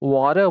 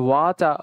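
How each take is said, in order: First: The middle consonant is a soft d sound. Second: The middle consonant is a clear t sound. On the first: "American অ্যাকসেন্টে ওয়াডা ওয়াডা ওয়াডা বলি, যেটাকে ওয়াডা ওয়াডা ডি আমরা ডি use করে উচ্চারণ করি" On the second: "British accent আমরা যেমন কি ওয়াটা"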